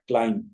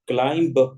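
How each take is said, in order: First: The word ends without any b sound. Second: The word ends with an audible b sound. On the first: The speaker calls it right. "इस बी को पढ़ा नहीं जाएगा" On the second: The speaker calls it wrong. "तो हमारा तलफुज गलत हो जाएगा"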